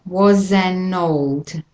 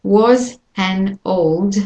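First: Put-on slow "was an old" run into one word; "was an old" slowly blended, consonants carried over; joined-up words. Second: Put-on very slow "was an old", each word apart; "was an old" slowly, word by word; separated words. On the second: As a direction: spell out "was", "an", "old" one by one. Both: Shown as a demonstration. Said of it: "all gets joined up".

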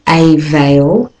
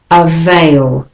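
First: A veil with a full AY, AY VEIL; a veil as two stressed words; wrong way. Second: Avail with a schwa start, uh-VAIL; right way. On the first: Teacher shows how not to say a veil. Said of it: "the next word is not a veil". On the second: Teacher models avail with a schwa. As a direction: avail begun with a weak uh. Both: Shown as a demonstration.

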